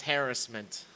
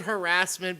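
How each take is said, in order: First: Harassment as "HAIR-us-ment"; first-syllable stress. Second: Harassment as "huh-RASS-ment"; second-syllable stress. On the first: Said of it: "be pronounced as harassment". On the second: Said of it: "heard the word harassment be pronounced". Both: Shown as a demonstration.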